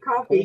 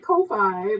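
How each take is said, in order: First: The name ends in a 'fee' sound, like coffee. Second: The name ends in a 'fye' sound, like Wi-Fi. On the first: The speaker calls it right. "I was supposed to be coffee" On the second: The speaker calls it wrong. "we tend to say Ko-Fi"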